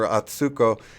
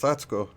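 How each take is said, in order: First: The middle syllable 'su' is strongly stressed. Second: The middle syllable 'su' is not stressed. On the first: The speaker calls it wrong. "you put too much stress on the Sue" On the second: The speaker calls it right. "all right, it's Atsuko"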